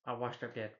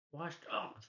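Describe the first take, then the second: First: Said in the usual way. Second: Higher, softer, rising at the end; mopey echo. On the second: Retold or imitated. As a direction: echo it back higher and softer, half asking. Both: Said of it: "He's like".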